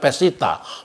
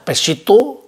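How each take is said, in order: First: The word ends with an a sound. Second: The word ends with an o sound. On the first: "kadang-kadang dibaca Pesita"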